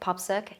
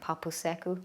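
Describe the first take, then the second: First: The word is clipped to two short syllables. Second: The word is said with all four syllables. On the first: It is the casual island way of saying it. "instead of saying the full word" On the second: It is the proper way of saying it. "the proper thing"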